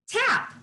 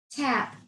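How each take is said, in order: First: The word tap sung out high; high exclaim. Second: Said in the usual way. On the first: Shown as a demonstration. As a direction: lift tap up high in triumph. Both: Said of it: "Say the sound with me".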